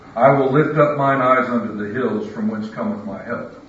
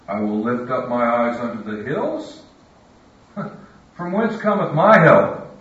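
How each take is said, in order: First: It is said as a flat statement. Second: It is said as a questioning rise.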